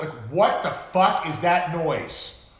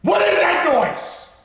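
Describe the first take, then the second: First: Loud, slow, higher, incredulous; exasperated rant. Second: Very high, drawn-out scream; screamed outrage. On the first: Host ranting about Batman Forever music, loud and exasperated. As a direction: stretch it out in disbelief. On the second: Host at peak rant over film music, screaming in exasperation. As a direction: scream the question slowly at full force. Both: Real, not acted.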